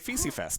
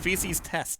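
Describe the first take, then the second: First: The second word begins with an f sound. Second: The second word begins with a t sound. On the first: The speaker calls it wrong. "my English eyes thought, okay, Feces Fest" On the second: The speaker calls it right. "It's Feces Test"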